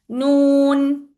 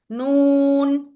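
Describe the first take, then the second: Both takes have the same delivery.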